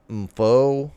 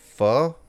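First: An M sound is heard before the name. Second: No M sound is heard before the name. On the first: "Do you pronounce the M?" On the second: "or just pho"

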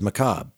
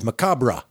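First: The ending does not rhyme with 'cadabra'. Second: The ending rhymes with 'cadabra'. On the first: "how E.G. Marshall says it" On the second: "Like Macabre de Cadabra"

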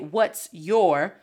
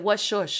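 First: The two words are said separately and clearly. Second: The two words are blended into one sound. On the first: The speaker calls it wrong. "we don't even say what's your" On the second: The speaker calls it right. "Sometimes we mesh it together and say"

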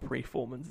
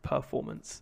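First: The first syllable is said as 'pre'. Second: The first syllable is said as 'per'. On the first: The speaker calls it wrong. "It's not preformance" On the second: The speaker calls it right. "it's performance"

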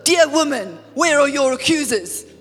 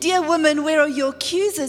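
First: It is said in a harsh, cold tone. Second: It is said in a tender, gentle tone.

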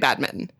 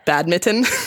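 First: The t sound in the middle is dropped. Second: The t sound in the middle is pronounced. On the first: "I'm not actually saying any T's" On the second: "I tried to say the T and then it felt wrong"

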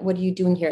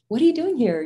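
First: It is said in a serious, challenging tone. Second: It is said in a cute, playful tone.

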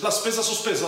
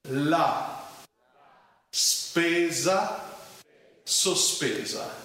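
First: It is said very fast. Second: It is said slowly, word by word.

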